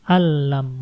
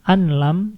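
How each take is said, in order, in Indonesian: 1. Bunyi n menyatu penuh ke dalam l setelahnya. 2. Bunyi n terdengar jelas sebelum l. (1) "tapi alam, masuk langsung" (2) "bukan anlam"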